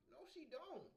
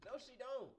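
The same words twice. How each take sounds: First: Said in the usual way. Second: High, laughing no; laughing denial. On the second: Real, not acted. Streamer telling chat a girl doesn't want him, laughing. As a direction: laugh it off while denying.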